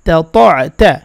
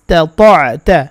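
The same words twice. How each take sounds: The two takes are said the same way.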